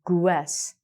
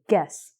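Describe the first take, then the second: First: The U is sounded, like 'gw-ess'. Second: The U is silent, with a plain hard G. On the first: The speaker calls it wrong. "I don't say guess" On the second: The speaker calls it right. "I say guess"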